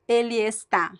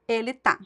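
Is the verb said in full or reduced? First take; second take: full; reduced. First: The verb is said with both syllables. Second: The verb is shortened to one syllable. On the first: The speaker calls it wrong. "It sounds robotic" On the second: The speaker calls it right. "This sounds so much more natural"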